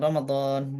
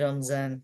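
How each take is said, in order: First: The middle consonant is a d-like sound. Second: The middle consonant is a z-like sound.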